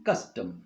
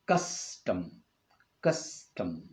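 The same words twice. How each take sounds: First: Said in the usual way. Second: CUS-tom, weight on CUS, softer and lower; stress on first syllable. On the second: Shown as a demonstration. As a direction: lean on CUS in custom, let tom fall away. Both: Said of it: "the stress is on the first syllable".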